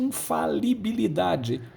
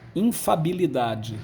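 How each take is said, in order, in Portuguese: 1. A palavra é dita por completo, com sete sílabas. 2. Uma sílaba 'li' é omitida, ficando com seis sílabas. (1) "nós temos dois lis" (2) "Muitos falam infabilidade"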